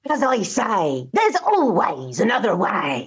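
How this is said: It is said in a gruff pirate voice. "pirate catchphrase might sound a bit like"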